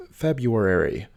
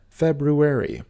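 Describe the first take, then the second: First: February said FEB-yoo-ary; common mispronunciation. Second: February with the r, FEB-roo-ary; correct pronunciation. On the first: Teacher showing viewers the wrong way. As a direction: say February without the first r. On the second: Teacher showing viewers the right way. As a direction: say February with both r sounds. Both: Shown as a demonstration. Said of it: "often mispronounced as February".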